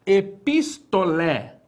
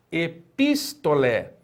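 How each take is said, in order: First: Epistolé slow, stress on the final lé; careful Greek pronunciation. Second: Epistolé again slowly, final syllable stressed; Epistolé, slow clear repetition; repeated model word. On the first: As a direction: model epistolé slowly, landing on the last syllable. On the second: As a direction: repeat Epistolé for the class to copy. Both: Shown as a demonstration. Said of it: "é a palavra".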